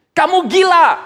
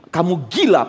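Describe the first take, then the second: First: Mock outburst. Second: Said in the usual way. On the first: Festus repeats accusation louder.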